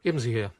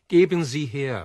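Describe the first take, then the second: First: Said in the usual way. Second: Much louder, insisting hard; impatient demand. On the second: Acted. Berlioz to the kiosk woman, a loud impatient demand. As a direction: repeat the order like you've lost patience.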